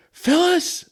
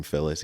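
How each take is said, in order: First: Much higher calling out Phyllis; dad calling mom. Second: Said in the usual way. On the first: Retold or imitated. Dad calls mom Phyllis, high mock call. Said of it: "he goes". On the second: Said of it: "it's my mom's name".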